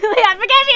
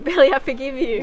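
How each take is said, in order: First: It is said louder. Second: It is said at normal, quieter volume.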